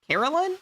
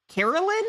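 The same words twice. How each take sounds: First: Another high rising "Carolyn?", a bit shorter; questioning rise. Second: Bright high query on "Carolyn?", rising up; questioning rise. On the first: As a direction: innkeeper repeats "Carolyn?" with a rising query. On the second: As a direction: innkeeper checks the name "Carolyn?" with a high rise. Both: Acted. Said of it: "Interesting choice of names".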